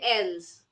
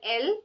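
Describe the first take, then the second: First: The word ends with an audible s sound. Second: The word ends without any s sound. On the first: The speaker calls it wrong. "I'm pronouncing it like that, but mind you, it's never pronounced like that" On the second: The speaker calls it right. "the pronunciation is the same. So it's il and el"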